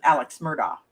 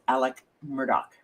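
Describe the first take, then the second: First: The first name ends with a ks sound. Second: The first name ends with a plain k sound. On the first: This is how most people say the name. "We, you, and the rest of us pronounce it" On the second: This is how the man himself says his name. "he apparently pronounces it"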